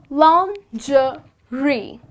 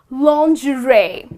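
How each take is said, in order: First: It is said with a British pronunciation. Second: It is said with an American pronunciation. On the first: "this is how the Brits pronounce it" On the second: "the Americans pronounce it as"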